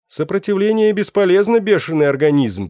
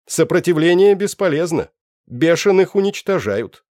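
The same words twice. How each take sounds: First: Голос переводчика. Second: Высокий громкий механический голос; чеканит, как бездушный автомат; голос машины-переводчика. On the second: (механический голос переводчика) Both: Acted. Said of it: "произнёс словарь".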